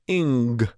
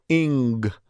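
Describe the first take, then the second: First: It ends with a hard g, then releases. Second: The same.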